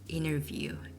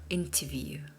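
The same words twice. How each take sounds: First: It is said in an American accent. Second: It is said in a British accent. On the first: "Americans tend to say interview" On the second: "the Brits goes for interview"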